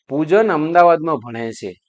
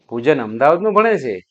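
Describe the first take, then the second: First: It is said as a plain statement. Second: It is said with surprise.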